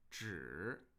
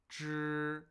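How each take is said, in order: First: The pitch falls and then rises. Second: The pitch stays flat and unchanging. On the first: "falling and then rising when I say 纸" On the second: "a first tone, right? Flat and unchanging"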